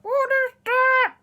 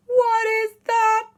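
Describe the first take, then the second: First: High, slow mangled words from a frozen mouth; unable to articulate. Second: High, loud, slow shock; astonished question. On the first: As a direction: say it loudly without moving your mouth. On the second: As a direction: draw out each word in amazement. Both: Acted. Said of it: "But they couldn't say it".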